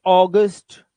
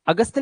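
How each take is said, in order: First: अगस्त as loud AW-gust; correct English form. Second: अगस्त as uh-GUST, short first vowel; wrong Hindi-style form. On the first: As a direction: punch a round "aw" in अगस्त. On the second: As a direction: say अगस्त as the mistake. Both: Shown as a demonstration. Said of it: "अगस्त नहीं".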